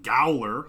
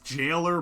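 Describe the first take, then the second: First: The word begins with a hard G sound. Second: The word begins with a J sound. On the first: The speaker calls it wrong. "I've been saying Gowler like an idiot" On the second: The speaker calls it right. "it's just pronounced jailer"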